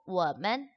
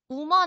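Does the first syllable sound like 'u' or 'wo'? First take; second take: wo; u. First: The first syllable is a 'wo' sound. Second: The first syllable is a plain 'u' sound. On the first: The speaker calls it right. "워, 나라는 단어에 man이 붙어가지고 워먼" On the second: The speaker calls it wrong. "우먼 아니에요"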